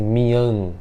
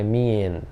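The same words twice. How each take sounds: First: Mian with an open a, like mi-ahn; wrong pronunciation. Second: Mian said as mi-en, with an e sound; correct pronunciation. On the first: Teacher showing students the wrong way to say it. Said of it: "Mian fica estranho". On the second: Teacher giving students the right vowel in the word. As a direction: say mian with an e in the middle. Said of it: "I A N tem som de I E N". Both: Shown as a demonstration.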